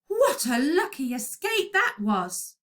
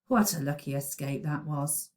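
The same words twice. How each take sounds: First: It is read with lively, exciting expression. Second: It is read flatly, with little expression. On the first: The speaker calls it right. "it would definitely need an exclamation mark at the end" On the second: The speaker calls it wrong. "That doesn't make it very exciting to the reader"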